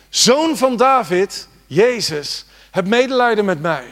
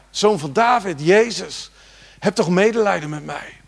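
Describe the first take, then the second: First: Slow, high, loud cry for mercy. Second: Said in the usual way. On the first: Acted. Blind man shouting over the crowd to Jesus, loud slow cry. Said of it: "begon hij te schreeuwen". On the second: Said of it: "En hij riep".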